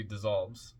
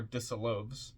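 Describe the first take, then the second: First: Said in the usual way. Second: Dissolves misread slowly as diss-oh-lohvz; dis-so-LOVES. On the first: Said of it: "supposed to be dissolves". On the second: Shown as a demonstration. Reader puzzles over a misprint, dissolves as diss-oh-lohvz. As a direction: say dissolves with three syllables, ending like "loaves". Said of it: "D I S S O L O V E S".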